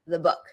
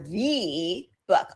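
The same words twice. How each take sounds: First: The word the has a weak schwa. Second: The word the has a full vowel. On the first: The speaker calls it right. "before a consonant, you'll hear a schwa" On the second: The speaker calls it wrong. "I don't say the or the book"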